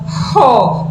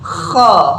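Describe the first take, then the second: First: The first consonant is a soft breathy h. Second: The first consonant is a raspy throat sound. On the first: The speaker calls it wrong. "tidak sekedar ho, ho, bukan" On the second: The speaker calls it right. "tapi kha"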